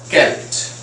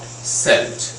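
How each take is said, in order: First: The word begins with a hard K sound. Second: The word begins with a soft S sound. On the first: The speaker calls it right. "it is pronounced as Celt" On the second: The speaker calls it wrong. "not Celt"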